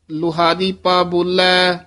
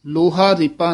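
First: ਲੁਹਾਰੀਪਾ said as one unbroken word; joined name. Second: ਲੋਹਾ ਰੀਪਾ said as two separate words; ਲੋਹਾ and ਰੀਪਾ broken apart, the wrong way; wrong split name. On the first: Teacher giving students the correct joined name. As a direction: run ਲੁਹਾਰੀਪਾ together without a break. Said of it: "ਲੁਹਾਰੀਪਾ ਇਕੱਠਾ ਹੀ ਬੋਲਣਾ ਹੈ". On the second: Teacher showing students the wrong split of the name. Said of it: "ਨਹੀਂ ਕਹਿਣਾ". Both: Shown as a demonstration.

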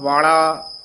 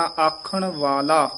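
First: "ਵਾਲਾ" with the l sound changed; wrong reading. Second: Slow "ਆਖਣ ਵਾਲਾ" with plain dental l; correct pronunciation demo. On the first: Teacher naming the misreading, retroflex l. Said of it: "ਨਹੀਂ ਕਹਿਣਾ". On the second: Teacher correcting the sound, slow plain l. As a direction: stretch "ਆਖਣ", clean l in "ਵਾਲਾ". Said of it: "ਵਾਲਾ ਨਹੀਂ ਕਹਿਣਾ". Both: Shown as a demonstration.

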